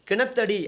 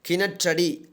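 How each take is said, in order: First: It is said in the colloquial spoken form. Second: It is said in the formal pure form. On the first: This is everyday spoken usage. "பேச்சு வழக்கு சொல்" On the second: This is pure literary usage. "தூய தமிழ் சொல்"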